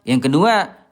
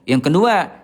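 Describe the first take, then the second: Both takes have the same delivery.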